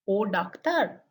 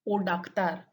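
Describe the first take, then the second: First: The voice rises at the end. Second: The voice falls at the end. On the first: It asks whether the person is a doctor. "is the question" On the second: It states that the person is a doctor. "is the statement"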